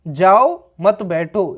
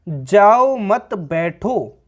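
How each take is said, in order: First: The pause comes after the first word. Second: The pause comes after the second word.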